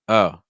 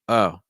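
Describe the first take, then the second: First: The vowel stays as one steady sound. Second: The same.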